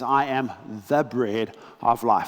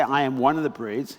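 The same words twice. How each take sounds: First: "the" leaned on, said as the one and only; the bread of life, with "the" stressed. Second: Said in the usual way. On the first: Shown as a demonstration. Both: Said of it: "This, he doesn't say".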